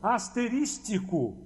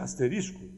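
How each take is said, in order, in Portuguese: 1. A palavra tem uma sílaba a mais: asterístico. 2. A palavra é dita sem sílaba a mais. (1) "que também não existe" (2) "o que existe é asterisco"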